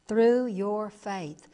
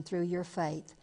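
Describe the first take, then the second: First: "Through your faith" slow and deliberate, leaning hard on "Through"; emphatic repeat. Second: Said in the usual way. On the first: Shown as a demonstration. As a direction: hammer "Through" home, drawing the phrase out slowly.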